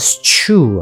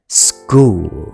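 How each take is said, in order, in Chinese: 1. 这个词以s开头，后面接ch音。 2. 这个词以s开头，后面接k音。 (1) "那如果照样这样来讲school，学校应该是school 啊" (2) "SCH 它的发音会变成SG，变成school"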